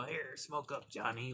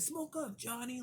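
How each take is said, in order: First: Said in the usual way. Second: High, cartoonish mock old man; hammed-up high-pitched imitation of the father. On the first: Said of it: "don't be handing it to a five-year-old". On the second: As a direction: squeak it out like a parody of the gruff dad. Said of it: "The old man grabbed and said".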